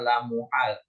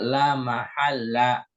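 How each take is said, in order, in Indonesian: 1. Dibaca muhal dengan vokal u. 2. Dibaca mahalla dengan vokal a. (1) "tadi bagus bacanya la muhal" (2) "Jadi yang benar la mahalla"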